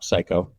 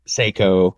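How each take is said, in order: First: The first syllable sounds like 'sigh'. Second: The first syllable sounds like 'say'. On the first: The speaker calls it right. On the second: The speaker calls it wrong. "everybody says just like you said"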